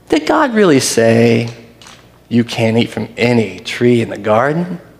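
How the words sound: It sounds sly and deceiving.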